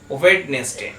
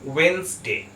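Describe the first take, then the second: First: The first 'd' and middle 'e' are pronounced. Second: The first 'd' is silent, two syllables. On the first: The speaker calls it wrong. "আমরা সাধারণত সবাই উচ্চারণ করে থাকি ওয়েডনেসডে" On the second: The speaker calls it right. "ঠিক উচ্চারণ হবে ওয়েন্সডে"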